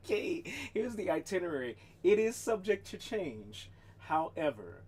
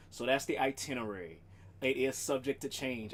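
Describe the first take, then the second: First: Hammed-up official notice; mock announcement. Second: Said in the usual way. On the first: Shown as a demonstration. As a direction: proclaim it like a town crier. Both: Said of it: "I should put that on one of the streets".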